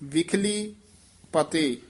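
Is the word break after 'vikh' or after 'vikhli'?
after vikhli. The break comes after the word 'vikhli'. The speaker calls it right. "ਵਿਖਲੀ ਪਤੇ ਸੰਬੰਧਕ ਬੋਲਣਾ"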